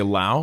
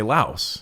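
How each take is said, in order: First: Lao with no final s; local pronunciation. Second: Laos with the final s sounded; American pronunciation. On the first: Co-host asks about place names, says Lao without s. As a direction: say Lao to rhyme with cow. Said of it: "I'll say Lao". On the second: Co-host gives the States' version, Laos with s. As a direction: say Laos like louse. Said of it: "we say Laos". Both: Shown as a demonstration.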